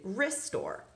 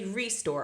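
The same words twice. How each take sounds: First: The first vowel is reduced to a schwa. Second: The first vowel is a full, clear vowel. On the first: "I usually say restore. So this is because this is flexing to the schwa" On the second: "I don't usually say restore"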